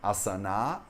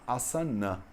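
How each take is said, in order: First: "Asana" with the final A drawn out long. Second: "asana" with the final A clipped short and light. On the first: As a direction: say "Asana" stretching the last A. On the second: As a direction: say "asana" with a short weak last A. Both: Shown as a demonstration. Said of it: "diferenciação da palavra asana pra palavra asana".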